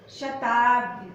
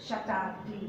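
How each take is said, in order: First: "शताब्दी" slowed and loud, the mistaken form; wrong pronunciation. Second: "शताब्दी" softer and lower, the right form; correct pronunciation. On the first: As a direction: stretch out "शताब्दी" as the common error. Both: Shown as a demonstration. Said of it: "नहीं".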